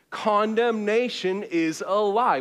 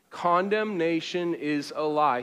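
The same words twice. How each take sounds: First: Slow, firm and louder; like you mean it. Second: Said in the usual way. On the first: Shown as a demonstration. Preacher leading the congregation to mean it. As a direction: declare it with conviction. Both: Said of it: "Say it like you mean it".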